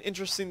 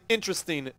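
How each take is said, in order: First: The word is mumbled and unclear. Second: The word is articulated clearly. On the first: The speaker calls it wrong. "I said interesting like with a mumble mouth" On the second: The speaker calls it right. "I'm going to say interesting again"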